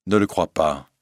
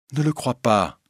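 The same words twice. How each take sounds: First: Said in the usual way. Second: Higher-pitched, insistent plea; urgent repeated plea. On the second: Acted. Christine begs the old lady not to believe it, urgent. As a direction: lift the pitch and plead.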